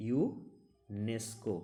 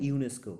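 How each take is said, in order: First: ইউনেস্কো drawn out very slowly as a single word; said as one word. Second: Said in the usual way. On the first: Shown as a demonstration. Teacher showing students ইউনেস্কো is spoken as one word, very slow. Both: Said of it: "এটা একটা আলাদা ওয়ার্ডের মতো করে উচ্চারণ করা যায়".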